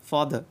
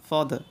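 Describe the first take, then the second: No difference in how they are said.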